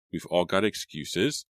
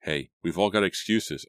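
First: Slow, pointed retort with rising end; sharp retort. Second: Said in the usual way. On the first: A narrator's reading. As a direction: throw the phrase back slowly, mildly sharp. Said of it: "Randy said sharply". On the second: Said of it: "I said".

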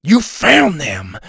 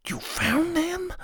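First: Slow, loud excited blurt; too loud. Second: High, soft hushed question; correcting himself into a whisper. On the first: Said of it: "he said too loud". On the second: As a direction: whisper it back eagerly. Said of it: "then he whispered it". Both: A narrator's reading.

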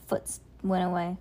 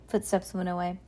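First: Foots said for footsteps, a slip; misread word. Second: Said in the usual way. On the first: Real, not acted. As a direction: stumble on Foots.

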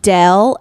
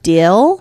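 First: "Dell" for deal, short e; Utah vowel. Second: Said in the usual way. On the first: Shown as a demonstration. Co-host questioning the dialect, short-vowelled "Dell". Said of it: "if you're saying Dell instead of deal". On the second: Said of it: "Dell instead of deal".

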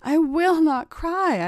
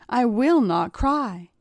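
First: Slow, high-pitched, insistent vow; heightened, drawn-out resolve against tears; desperate vow. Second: Slow, mildly insistent vow; measured, understated resolve; determined vow. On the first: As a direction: vow it higher and more strained, drawing it out. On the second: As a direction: vow it slowly, holding back tears. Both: A narrator's reading. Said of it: "I vowed to myself".

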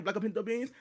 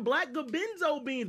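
First: "black or pinto beans", with "or" and "pinto" as separate words; corrected "black or pinto beans"; intended pronunciation. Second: "black gabenzo beans", words run into a made-up bean name; mishearing voiced as "gabenzo"; misheard pronunciation. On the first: Retold or imitated. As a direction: say "or pinto" intelligibly, with a p in "pinto". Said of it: "but she was saying". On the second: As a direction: say "gabenzo" as one garbled word for "or pinto". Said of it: "I thought they were saying".

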